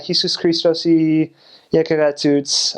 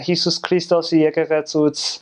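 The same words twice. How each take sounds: First: It is said with a heavy American accent. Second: It is said with a more native Armenian accent.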